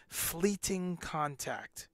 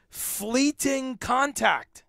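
First: Fleeting contact said slowly, each word weighed; drawn-out "Fleeting contact", slow and deliberate; slow emphatic stress. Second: "Fleeting contact" much higher, louder, very slow; dramatic emphasis. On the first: Shown as a demonstration. Teaching viewers a new phrase, slow emphatic delivery. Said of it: "a new thing for your lexicon". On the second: Real, not acted. Warning viewers about the Delta variant, alarmed emphasis. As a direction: stretch "Fleeting contact" out high and loud, alarmed.

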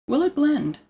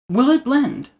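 First: High TV-host "Will it blend?" with "it" stressed. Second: High, announcer-style "Will it blend?" with "it" stressed; Will It Blend host. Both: Retold or imitated. Imitating the blender show host for viewers. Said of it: "You guys watch that channel?".

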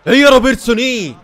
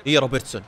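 First: Louder, higher cheer for Robertson; excited shout. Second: Said in the usual way. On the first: Real, not acted. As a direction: burst out in a high yell. Same words shouted after plain take. (هتاف عالٍ ومرتفع بحماس)

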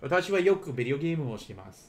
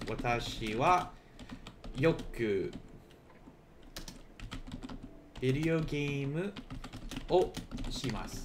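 First: Quick run-through at full speed; fast. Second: Slow, word by word with pauses; slow and deliberate. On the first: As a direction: rattle the sentence off fast. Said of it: "remember that you can literally". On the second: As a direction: spell the sentence out slowly for learners. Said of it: "I could say for me". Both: Shown as a demonstration.

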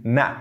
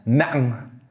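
First: Said in the usual way. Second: "nang" stopped in the throat, then ending sound released; re-release the air on the end of "nang"; emphatic released ending. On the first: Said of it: "you kind of re-release the air". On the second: Shown as a demonstration. Teacher contrasting emphasis, "nang" with its ending sounded after the stop. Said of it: "you kind of re-release the air and pronounce the ending sound".

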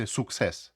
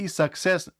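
First: Success said "sukses" with a round u; the wrong success with oo. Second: Success said "sakses", first vowel a. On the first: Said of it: "не вимовляйте success". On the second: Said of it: "вимовляється як А". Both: Shown as a demonstration.

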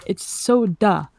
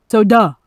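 First: Slow "soda" with the o held long; her way of saying soda. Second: "Soda" punched loud with a clear "uh" ending; loud soda demo. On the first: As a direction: drag out "soda" slowly. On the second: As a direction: hit "Soda" hard. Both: Shown as a demonstration. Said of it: "whenever I say, "I want a soda".

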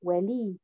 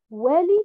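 First: Wali stressed on the second haraka, softer; second-syllable stress. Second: Wali stressed on the first haraka; first-syllable stress. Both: Shown as a demonstration. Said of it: "Pareil pour le mot wali".

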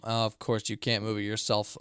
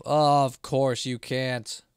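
First: Said in the usual way. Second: Very slow, dragged-out sarcasm; sarcastic drawl. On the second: Real, not acted. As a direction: stretch each word out mockingly. Complains at game puzzle.

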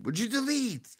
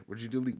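First: High squeaky outcry; high-pitched disbelief. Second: Said in the usual way. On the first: Real, not acted. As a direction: voice leaps way up on the question. Repeats question in exaggerated disbelief.

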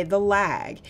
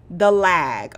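First: Said in the usual way. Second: Loud, heavy stress on "the lag"; emphatic complaint. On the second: Real, not acted. Streamer griping to viewers about lag, loud emphatic. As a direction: lean hard on "the lag" like a real gripe.

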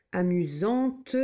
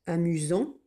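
First: Amusante slowed, final T clearly heard; T sounded. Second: Said in the usual way. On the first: Shown as a demonstration. Teacher contrasting masculine and feminine, slow and clear. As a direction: drag out Amusante and land on the T. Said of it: "j'entends le T". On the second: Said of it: "je n'entends pas le T".

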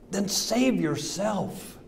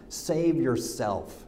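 First: Higher, slow drawn-out 'save yourself' with scorn; slow taunt. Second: Soft, slow scoffing laugh into the words 'save yourself'; mocking laugh. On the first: Acted. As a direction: stretch it out as a sneering dare. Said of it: "They yelled at him". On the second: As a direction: chuckle and drag it out with contempt. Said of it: "hurled insults at him".

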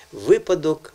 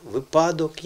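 First: "випадок" with ВИ strong; stress on first syllable. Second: "випадок" with ПА strong; stress on second syllable. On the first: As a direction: hit ВИ at the start of "випадок". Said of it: "правильний наголос". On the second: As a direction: lean on ПА in "випадок". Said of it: "де правильний наголос". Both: Shown as a demonstration.

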